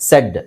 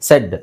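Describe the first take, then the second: Both takes have the same delivery.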